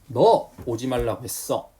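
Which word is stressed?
너. The stress falls on the word 너. It was you, not someone else, who was told not to come. "그럼 너의 강세를 준 거죠"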